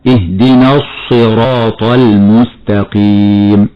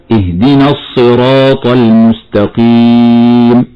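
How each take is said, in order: First: Slow, lips rounded on the ص of الصراط; showing the rounded-lip mistake; rounded sad error. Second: Slow, the ص in الصراط heavy but the lips not rounded; the correct heavy sad; heavy sad without rounding. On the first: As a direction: overdo the ص in الصراط with pursed lips. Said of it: "هكذا خطأ". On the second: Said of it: "والصواب النطق هكذا". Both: Shown as a demonstration.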